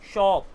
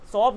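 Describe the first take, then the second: First: The word starts with a hushing sh sound. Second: The word starts with a plain s sound. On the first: The speaker calls it right. "शा बोलना है" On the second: The speaker calls it wrong. "शॉप गलत है"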